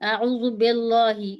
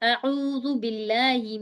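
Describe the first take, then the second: First: The L in billahi sounds heavy and full-mouthed. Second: The L in billahi sounds light and thin. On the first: The speaker calls it wrong. "बहुत से लोग उसमें कहते हैं ... ऐसे नहीं पढ़ना हमें" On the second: The speaker calls it right. "इसको हम मोटा नहीं पढ़ेंगे"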